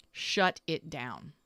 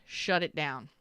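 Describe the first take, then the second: First: "Shut it down" said slowly, each word weighted; with emphasis. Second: Said in the usual way. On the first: Shown as a demonstration. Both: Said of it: "With emphasis".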